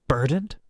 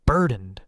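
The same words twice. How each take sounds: First: BURDENED loud, rising into a question; incredulous BURDENED, pitch climbing at the end; bitter echo. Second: BURDENED loud, with a falling close; emphatic, final BURDENED, set off by a pause; cold emphasis. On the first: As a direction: throw BURDENED back with a rising tune. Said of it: "I laughed, sharp and bitter". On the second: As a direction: land hard on BURDENED and drop the pitch. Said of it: "voice cold". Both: A narrator's reading.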